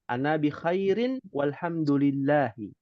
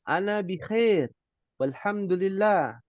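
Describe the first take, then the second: First: Every word ending keeps its final vowel. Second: The final vowels and endings are dropped. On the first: This is the careful form for practice. "ketika berlatih, maka dibaca harokat semuanya" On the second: This is the casual form for everyday conversation. "kalau percakapan mungkin disingkat boleh"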